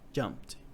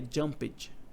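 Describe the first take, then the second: First: The -ed ending adds no extra syllable. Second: The -ed ending is sounded as an extra syllable. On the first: The speaker calls it right. "é jumped" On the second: The speaker calls it wrong. "não é jumped"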